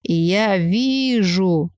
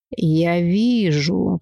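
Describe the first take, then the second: First: Very slow, eerie seer voice; drawn-out mystic. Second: Very slow, stretched words; drawn out. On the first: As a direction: stretch it, spooky and distant. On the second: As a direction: drag it out like a seer. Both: Acted. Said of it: "протянула девица".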